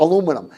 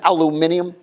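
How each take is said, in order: First: It is said the American way, a-LU-minum. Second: It is said the British way, al-you-MIN-ium.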